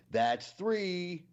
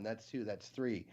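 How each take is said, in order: First: Higher, louder final count; mock stern count. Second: Said in the usual way. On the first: Amish man explaining his count to his wife, mock stern. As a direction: land the punchline number hard. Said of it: "he looks at her and he goes". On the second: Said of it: "It's that he's counting down".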